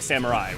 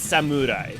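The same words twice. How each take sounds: First: The vowel after the m sounds like ah. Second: The vowel after the m sounds like oo. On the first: This is the common English way of saying it. The speaker calls it wrong. "we say, like" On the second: This is the original Japanese way of saying it. The speaker calls it right. "But it's it's samurai. because it's M U, not M A"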